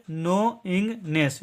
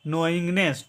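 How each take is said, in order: First: "नोइंगनेस" slowly in three parts, no-ing-ness; syllable by syllable. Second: "नोइंगनेस" run together as one word, silent k; correct joined pronunciation. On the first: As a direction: break "नोइंगनेस" into three separate beats. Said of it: "अब इसको मिला करके पढ़िए". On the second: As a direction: say "नोइंगनेस" smoothly, starting on n. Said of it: "इसका उच्चारण करेंगे". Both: Shown as a demonstration.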